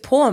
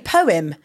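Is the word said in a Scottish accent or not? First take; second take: Scottish; not Scottish. First: It is said in a Scottish accent. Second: It is said without a Scottish accent.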